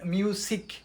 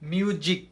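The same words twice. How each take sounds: First: The middle consonant is a hissing S sound. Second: The middle consonant is a buzzing Z sound. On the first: The speaker calls it wrong. "Not মিউজিক" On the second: The speaker calls it right. "It will be মিউজিক"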